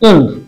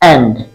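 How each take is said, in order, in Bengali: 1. স্বরধ্বনিটি 'end' শব্দের স্বরধ্বনির মতো শোনায়। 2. স্বরধ্বনিটি 'and' শব্দের স্বরধ্বনির মতো শোনায়। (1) "not end" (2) "এর উচ্চারণ হবে A N D অর্থাৎ and"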